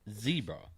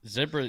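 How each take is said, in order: First: Zebra is said with an American pronunciation. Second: Zebra is said with a non-American pronunciation. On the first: "America is the only place that says zebra" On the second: "zebra is how everybody else says it, apart from America"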